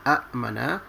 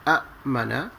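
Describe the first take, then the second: First: Two glottal stops split the opening vowel sound. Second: Two glottal stops split the opening vowel sound.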